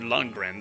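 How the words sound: The name is said with American pronunciation. "That's a very American way of pronouncing that"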